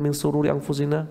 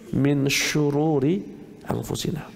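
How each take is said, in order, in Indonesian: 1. Kata kedua dimulai dengan bunyi 's' biasa. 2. Kata kedua dimulai dengan bunyi 'sh'. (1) "salah ngapalnya" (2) "yang betul min syururi anfusina"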